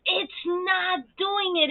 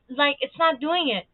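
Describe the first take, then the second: First: "It's not doing it" stretched out slowly and higher; slow, exasperated repeat. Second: Said in the usual way. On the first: Real, not acted. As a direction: drag it out in disbelief.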